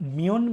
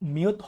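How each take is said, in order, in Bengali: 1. শব্দটি n ধ্বনি দিয়ে শেষ হয়। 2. শব্দটি t ধ্বনি দিয়ে শেষ হয়। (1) "তাহলে এর সঠিক উচ্চারণ কি হবে?" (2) "মিয়ত হবে না"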